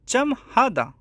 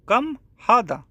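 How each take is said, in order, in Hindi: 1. पहला शब्द 'ch' ध्वनि से शुरू होता है। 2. पहला शब्द 'k' ध्वनि से शुरू होता है। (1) "आज सऊदी या दुबई में चम हादा।" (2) "इसे अरबिक में बोलते हैं कम हादा।"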